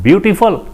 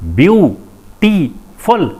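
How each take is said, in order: First: Said in the usual way. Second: beautiful slowly split as view, टी, फुल; syllable by syllable. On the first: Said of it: "एक लफ्ज़ बोलते हैं". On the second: Shown as a demonstration. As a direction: break beautiful into three separate beats, pausing after each. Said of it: "इसमें तीन syllable हैं". (Beautiful को तीन टुकड़ों में धीरे-धीरे: ब्यू, टी, फुल)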